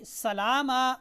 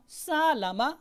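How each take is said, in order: First: The second vowel is drawn out long. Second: The first vowel is drawn out long. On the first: "वो लाम को खींच देंगे" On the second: "यानी सीन को खींच दिया"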